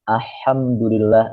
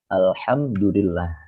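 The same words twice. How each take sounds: First: The L before the H is blurred. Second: The L before the H is pronounced clearly. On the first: The speaker calls it wrong. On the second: The speaker calls it right. "dibaca jelas"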